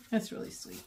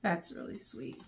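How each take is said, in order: First: Whispered, barely voiced; touched whisper. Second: Soft, low, moved; touched. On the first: After reading the note, whispered to herself. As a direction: breathe it out to yourself. Repeated, moved. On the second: Reading the author's note, softly touched. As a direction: say it quietly, genuinely touched. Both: Real, not acted.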